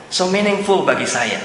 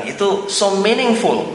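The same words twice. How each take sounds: First: Said in the usual way. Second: "so meaningful" drawn out slowly, higher, leaning on "meaningful"; slow emphasis on meaningful. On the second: Retold or imitated. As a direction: stretch "so meaningful" out to land it. ("so meaningful" diucapkan pelan dan ditekan) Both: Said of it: "dia mengatakan begitu".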